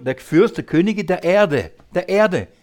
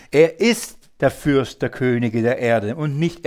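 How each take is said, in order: First: "Erde" stressed and falling, then repeated; preaching with the weight on "Erde". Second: Said in the usual way. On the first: Shown as a demonstration. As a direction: lean on "der Erde" and say it twice. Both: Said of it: "Und hier ist die Betonung".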